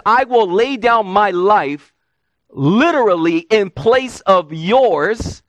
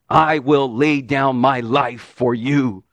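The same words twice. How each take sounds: First: Slow quote leaning hard on "I" at the start; preacher slowing and stressing "I" to show Peter's pride. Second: Said in the usual way. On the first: Shown as a demonstration. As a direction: land on "I", then let "literally in place of yours" come slowly. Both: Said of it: "Now listen again to what Peter says".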